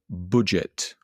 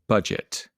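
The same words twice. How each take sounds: First: It is said in a northern English accent. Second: It is said in a southern English accent. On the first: "particularly in the north of the country, who would pronounce this word budget" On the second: "I have a standard middle-class Southern English accent, so I say budget"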